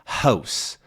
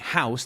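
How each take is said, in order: First: The vowel starts higher, with Canadian raising. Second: The vowel starts low, with no Canadian raising. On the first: "they might say house, house" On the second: "instead of saying house"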